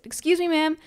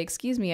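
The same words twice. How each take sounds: First: Retold polite call-out. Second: Said in the usual way. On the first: Patient woman to line cutter, pitched-up polite excuse me. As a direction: raise the voice to get her attention. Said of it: "So I said". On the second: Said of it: "and I want to say".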